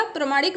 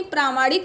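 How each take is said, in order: First: प्रामाणिक with a short "pra"; wrong short vowel. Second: प्रामाणिक with a long "praa"; long first vowel. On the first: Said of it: "प्रामाणिक नहीं होगा सही". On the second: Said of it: "प्रामाणिक में आ लगेगा". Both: Shown as a demonstration.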